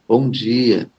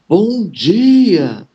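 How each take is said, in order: First: It is said quietly and flatly. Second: It is said loudly and energetically.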